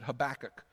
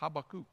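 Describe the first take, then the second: First: The name is said the anglicized way. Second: The name is said the Hebrew way. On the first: The speaker calls it wrong. "That's how I've always said it" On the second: The speaker calls it right. "So that's the Hebrew way to say it"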